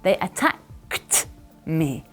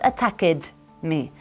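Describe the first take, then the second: First: The ending is said as a plain T sound. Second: The ending is said as an extra syllable. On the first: The speaker calls it right. "You just have to pronounce a strong D or T sound" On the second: The speaker calls it wrong. "Not attacked me"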